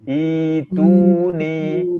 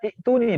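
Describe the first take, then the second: First: The word begins with a long i vowel. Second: The word begins with a short i vowel. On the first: The speaker calls it right. "I dua harokat, i panjang" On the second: The speaker calls it wrong. "yang ketiga baca itu nih"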